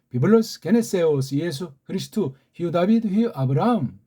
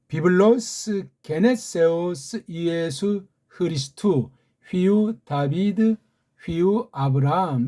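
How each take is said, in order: First: The phrase is read at a medium pace. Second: The phrase is read at a slow pace. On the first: "조금 빨리 읽어볼까요?" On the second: "이렇게 읽습니다"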